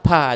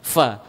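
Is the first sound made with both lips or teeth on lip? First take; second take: both lips; teeth on lip. First: Both lips close, giving a p-like sound. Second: Upper teeth touch lower lip with slight hiss. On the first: The speaker calls it wrong. "apabila tersentuh dua bibir ... yakinlah itu salah" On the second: The speaker calls it right. "ujung gigi di atas dengan bibir di bawah sehingga keluar sedikit desir"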